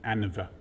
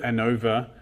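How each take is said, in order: First: The stress is on the first syllable. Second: The stress is on the second syllable. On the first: "they'll put the emphasis on the an and not the o" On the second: "I call it ANOVA"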